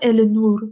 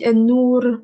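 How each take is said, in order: First: The l is pronounced clearly: el-nour. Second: The l merges into the n: en-nour. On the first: The speaker calls it wrong. "On dit pas el-nour" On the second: The speaker calls it right. "On dit en-nour"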